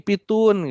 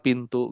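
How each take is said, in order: First: The t comes before the n sound. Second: The n comes before the t sound. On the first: A young child mixes up the sounds. The speaker calls it wrong. "Ya ini pitun gitu ya" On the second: The word is articulated clearly. The speaker calls it right. "padahal pintu gitu ya"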